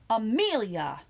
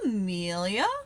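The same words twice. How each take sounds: First: It sounds like a scolding warning to behave. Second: It sounds surprised at seeing the person there. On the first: Behave and stop doing that. "You can also use it to mean behave" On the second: I did not expect to see you here. "what are you doing here"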